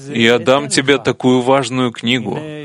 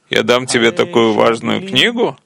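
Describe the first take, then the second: First: It is said as a plain, friendly offer. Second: It is said with a note of astonishment. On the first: The speaker wants to give the book. "в это может быть вложено желание вручить и передать содержимое другу" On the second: The speaker refuses to give the book. "если скажет это с нотой изумления"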